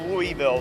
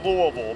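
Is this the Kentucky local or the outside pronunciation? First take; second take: outside; Kentucky local. First: It is said the way outsiders say it. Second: It is said the local Kentucky way. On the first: This is how people elsewhere say it. "outside of there, most people do call it Louisville" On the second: This is how people in the community say it. "If you're in this community in yeah. Kentucky, it's Louisville"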